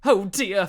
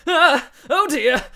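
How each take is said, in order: First: Said in the usual way. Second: High, loud alarmed yelp; startled hero yelping in panic; Ah and Oh dear cried high and loud; panicked cry. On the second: Acted. Hounds rush at Phil.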